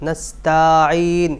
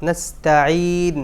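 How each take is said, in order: No difference in how they are said.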